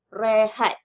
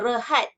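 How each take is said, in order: First: The first vowel is a clear e sound. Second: The first vowel is a weak schwa. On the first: The speaker calls it right. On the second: The speaker calls it wrong.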